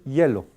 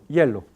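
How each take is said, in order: Both takes have the same delivery.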